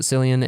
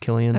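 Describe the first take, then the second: First: The name begins with an S sound. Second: The name begins with a K sound. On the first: The speaker calls it wrong. "I used to pronounce it Cillian" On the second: The speaker calls it right. "he said it's pronounced Killian"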